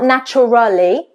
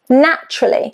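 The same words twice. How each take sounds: First: The middle syllable is fully pronounced. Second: The middle syllable is dropped. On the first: The speaker calls it wrong. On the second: The speaker calls it right.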